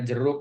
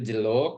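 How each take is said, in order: First: The middle consonant is a trilled R. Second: The R is replaced by an L sound. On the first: The speaker calls it right. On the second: The speaker calls it wrong.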